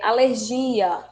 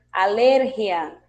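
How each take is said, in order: First: "alergia" com a tônica no "gi", aler-GI-a; devagar, forte no "gi"; alergia em português. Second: "alergia" com a tônica no "ler", aLERgia; alergia em espanhol. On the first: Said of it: "o que se pronuncia de um jeito em português". (alergia à brasileira) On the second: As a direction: diga a-LER-gia. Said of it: "em espanhol vamos ter". (pronúncia espanhola, forte no "ler") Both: Shown as a demonstration.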